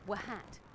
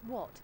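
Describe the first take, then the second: First: It is said with an extra sounded h, 'wa-hat'. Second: It is said normally, with no extra h sound.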